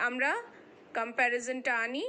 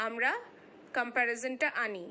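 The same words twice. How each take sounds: The two takes are said the same way.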